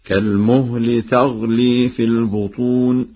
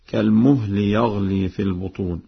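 First: يغلي becomes تغلي, slow recitation; feminine ta. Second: Said in the usual way. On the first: Shown as a demonstration. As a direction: start the verb with ta: تغلي. (تغلي بتاء التأنيث) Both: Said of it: "بتاء التأنيث هكذا".

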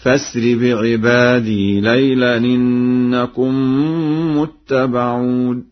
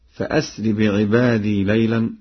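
First: فأسر chanted as fa-sri, slow and louder; connecting hamza. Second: Said in the usual way. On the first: Shown as a demonstration. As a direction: recite with hamzat wasl in فأسر. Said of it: "بوصل الهمزة في الفعل فأسر هكذا". (فأسر بهمزة وصل، ترتيل مرتفع) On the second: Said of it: "بوصل الهمزة".

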